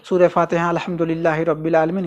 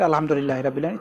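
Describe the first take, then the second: First: "सूरह फातिहा" wrongly said before "अल्हम्दुलिल्लाहि"; wrong way demo. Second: "अल्हम्दुलिल्लाहि रब्बिल आलमीन" said straight and quick; correct way demo. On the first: Teacher mimicking the mistaken recitation for women. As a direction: recite "सूरह फातिहा अल्हम्दुलिल्लाहि रब्बिल आलमीन" with the title prefixed. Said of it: "इस तरीके से नहीं ना". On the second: Teacher showing the right recitation, quick and direct. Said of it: "direct". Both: Shown as a demonstration.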